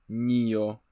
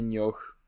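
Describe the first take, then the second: First: The word ends in a vowel, no h sound. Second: The word ends with an audible h sound. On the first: The speaker calls it right. "tylko Nio ... H jest nieme?" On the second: The speaker calls it wrong. "przede wszystkim nie Nioch"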